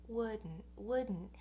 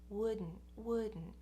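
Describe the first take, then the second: The two takes are said the same way.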